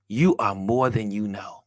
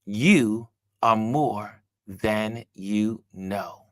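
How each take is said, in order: First: Said in the usual way. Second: Very slow, word by word; spaced-out, deliberate encouragement; slow emphasis. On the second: Real, not acted. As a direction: let each word land with a pause after it.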